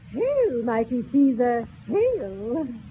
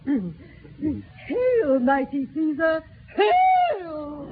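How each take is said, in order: First: The final hail is said plainly. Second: The final hail is said with more force.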